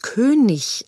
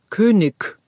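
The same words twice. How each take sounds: First: The word ends in a soft ch sound. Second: The word ends in a hard k sound. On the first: "da die kleinen Kinder sonst ein CH am Ende schreiben würden" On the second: "mit einem harten G"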